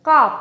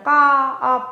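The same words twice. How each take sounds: First: Said in the usual way. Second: কা, আপ as two stretched pieces with a gap; broken in two. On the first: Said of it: "একে কিন্তু ভাঙা যাবে না". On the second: Shown as a demonstration. Teacher showing students a wrong split, কা, আপ broken apart. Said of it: "এরম ভাঙা যাবে না".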